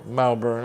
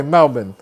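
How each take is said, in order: First: Said in the usual way. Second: Melbourne squeezed short, second syllable just "bn"; Australian local pronunciation. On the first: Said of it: "If you say Melbourne as one word". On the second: Retold or imitated. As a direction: say Melbourne as "MEL-bin", dropping the R. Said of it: "that's how we say Melbourne".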